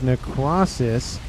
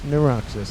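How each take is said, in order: First: The 'c' is pronounced as a clear k sound. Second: The 'c' is not pronounced as a clear k. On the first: The speaker calls it right. "I have to, again, continue to pronounce that C every single time" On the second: The speaker calls it wrong. "not Neuroxis"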